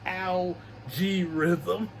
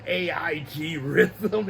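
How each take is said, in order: First: The start is said as one syllable, Al. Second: The start is spelled out as letters A, I. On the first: The speaker calls it right. "It's Al G Rhythm" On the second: The speaker calls it wrong. "I kept saying uh"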